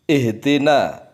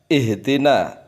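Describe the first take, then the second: No difference in how they are said.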